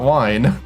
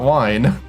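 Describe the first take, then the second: First: The vowel sounds like 'eye'. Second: The same.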